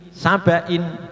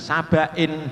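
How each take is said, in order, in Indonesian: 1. Vokal sebelum n itu pendek dan jelas. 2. Vokal sebelum n itu miring dan condong. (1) "Bacaannya tetap pendek-pendek, jangan dibaca miring" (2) "jangan sabain, jangan sampai ya. Sabain itu berarti tidak tepat, itu namanya miring"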